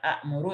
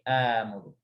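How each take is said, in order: First: A glottal stop follows the opening vowel. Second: The opening vowel is drawn out long. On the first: The speaker calls it wrong. "Bukan akmuru" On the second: The speaker calls it right. "tapi amuru"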